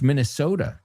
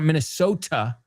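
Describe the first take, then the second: First: The T sound is softened, not a clear T. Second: The T sound is said as a clear T. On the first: The speaker calls it right. "It's Minnesota, just so you know" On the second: The speaker calls it wrong. "it's not a T. It's not Minnesota"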